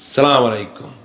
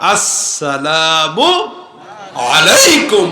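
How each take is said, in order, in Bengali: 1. সালামটি সরাসরি 'salam' দিয়ে শুরু হয়, 'as' নেই। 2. সালামটি চাপা 'as' ধ্বনি দিয়ে শুরু হয়। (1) "আবার কিছু লোক সালাম দিয়ে সালাম আলাইকুম" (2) "শুদ্ধ সালামটা আসসালামু আলাইকুম বলেন"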